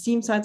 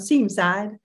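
First: It is said in a neutral accent. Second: It is said in a Southern US accent.

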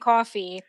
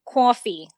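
First: It is said in a general American accent. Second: It is said in a New York accent.

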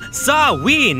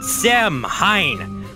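First: The word sounds like 'sow-in', without an 'h'. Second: The word sounds like 'sam-hain', with an 'h'. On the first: The speaker calls it right. "It's pronounced Samhain" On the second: The speaker calls it wrong. "not Samhain"

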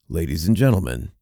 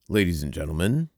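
First: It is said in a big announcer voice. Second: It is said in a normal speaking voice.

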